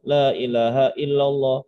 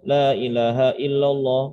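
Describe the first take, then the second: The two takes are said the same way.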